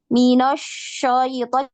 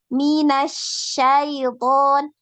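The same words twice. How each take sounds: First: The sh sounds thick and heavy. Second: The sh is light, with the mouth open. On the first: The speaker calls it wrong. "Jangan minasyaiton, jadi tebal kedengarannya shinnya" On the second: The speaker calls it right. "mulutnya dibuka"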